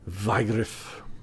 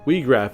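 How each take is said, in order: First: The name is pronounced in a German way. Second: The name is pronounced in a non-German way. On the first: This is how the speaker assumed it was said. "as I the German pronunciation with the W" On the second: This is how the game's actors say it. "as they say"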